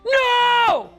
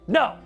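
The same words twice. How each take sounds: First: It is shouted loudly. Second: It is said firmly at a controlled volume.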